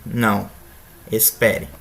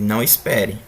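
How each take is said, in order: First: There is a pause after the first word. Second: The words run together without a pause. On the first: The answer is no; wait. "A inserção de apenas uma vírgula muda o significado" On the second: There is no need to wait. "o professor diz para o aluno que não é necessário esperar"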